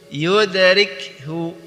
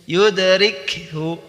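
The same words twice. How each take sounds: No difference in how they are said.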